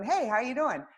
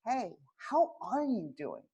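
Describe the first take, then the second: First: It sounds quick and casual. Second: It sounds warm and sincere.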